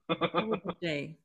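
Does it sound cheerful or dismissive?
dismissive. It sounds flat and dismissive.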